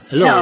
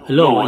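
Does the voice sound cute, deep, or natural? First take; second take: cute; deep. First: The voice sounds high and cute. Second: The voice sounds big and deep. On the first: "medyo nag-cute, cute po yung boses natin ngayon" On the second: "malaki po yung boses natin. Nag-iba"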